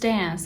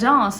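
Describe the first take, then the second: First: It is said with an American accent. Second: It is said with a British accent. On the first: The speaker calls it wrong. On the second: The speaker calls it right.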